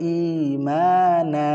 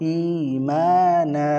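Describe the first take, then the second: The two takes are said the same way.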